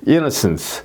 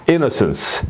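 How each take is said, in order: Both takes have the same delivery.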